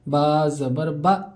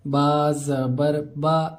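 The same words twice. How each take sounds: First: The final vowel is cut off with a jerk. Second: The final vowel has a moderate, even length. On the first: The speaker calls it wrong. "इस तरह झटके के साथ पढ़ते हैं। ऐसा नहीं पढ़ना है, ये गलत है।" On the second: The speaker calls it right. "बल्कि दरमियानी हिसाब से पढ़ना है।"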